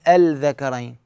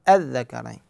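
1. يُسمع صوت اللام قبل الحرف. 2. لا يُسمع صوت اللام؛ الحرف مشدّد. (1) "ما أقول الذكرين" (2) "أقول الذكرين"

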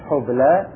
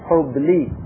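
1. تنتهي الكلمة بصوت الألف الطويل 'a'. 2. تنتهي الكلمة بصوت الياء الطويل 'i'. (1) "في كلمة حبلى" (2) "بعضهم يقول حبلي، يقف عليها بجعلها ياء"

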